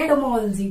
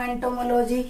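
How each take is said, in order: First: एंटोमोलॉजी as ento-MOL-jee; corrected pronunciation. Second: एंटोमोलॉजी as ento-mo-LOH-jee; mispronounced एंटोमोलॉजी. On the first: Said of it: "इसको बोलते हैं एंटोमोलॉजी". (एंटोमोलॉजी को एंटोमोल-जी बोलकर) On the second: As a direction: keep लॉजी a separate unit in एंटोमोलॉजी. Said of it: "मैं शुरू से यही पढ़ती". (एंटोमोलॉजी को एंटोमो-लोजी तोड़कर) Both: Shown as a demonstration.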